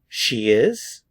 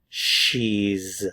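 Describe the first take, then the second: First: It is said as two full words. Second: It is said as one contracted syllable.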